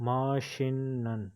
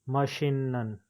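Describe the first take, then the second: The two takes are said the same way.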